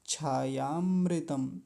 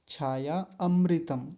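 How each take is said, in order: First: The two words are run together as one word. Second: The two words are said separately, keeping the a. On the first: The speaker calls it right. "इन दोनों को साथ ही बोलेंगे" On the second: The speaker calls it wrong. "इन दोनों शब्दों को अलग अलग करके बोलते हैं। छाया अमृतम ऐसे बोलते हैं"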